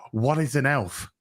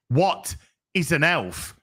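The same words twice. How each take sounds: First: Said in the usual way. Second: WHAT drawn out slowly, a pause, then "is an elf"; deliberate emphasis. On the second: Acted. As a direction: slowly set WHAT apart from the rest. Repeats the question deliberately for emphasis.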